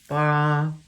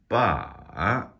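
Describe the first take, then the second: First: The pitch stays high and level. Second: The pitch dips down, then rises again. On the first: "That would be first tone. That's that high flat tone" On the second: "That's an exaggerated third tone where it dips down and then back up again"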